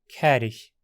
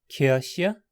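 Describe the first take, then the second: First: It is said in Hunsrik pronunciation. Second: It is said in Standard German pronunciation. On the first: "por fim em Hunsriquiano moderno" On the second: "depois em alemão padrão moderno"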